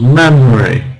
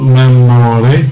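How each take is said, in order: First: The word is said with two syllables. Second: The word is said with three syllables. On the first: The speaker calls it right. "two syllables" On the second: The speaker calls it wrong. "not memory"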